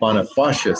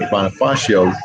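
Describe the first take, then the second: First: The name ends with an 'a' sound. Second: The name ends with an 'o' sound. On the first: This is how local residents say it. "the locals here call it" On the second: This is how an outsider has been saying it. "I've been calling it"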